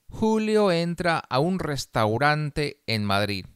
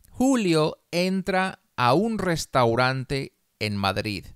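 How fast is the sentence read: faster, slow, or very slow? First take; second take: faster; slow. First: The sentence is read at a faster pace. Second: The sentence is read slowly. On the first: "más rápido" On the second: "Una vez despacio"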